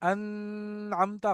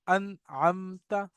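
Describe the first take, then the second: First: The n is nasalized and blurred, not clear. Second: The n is pronounced clearly without nasal hold. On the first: The speaker calls it wrong. "गलत हो जाएगा" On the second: The speaker calls it right. "Simple reading"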